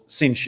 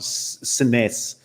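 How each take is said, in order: First: The name sounds like 'Cinch', ending in a 'sh' sound. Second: The name sounds like 'Sines', read as English spelling. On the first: This is how the name is said locally. The speaker calls it right. "which I found out is called Cinch in Portugal" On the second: This is how an English speaker would read it. The speaker calls it wrong. "not Sines, as you might see it on a map as an English speaker"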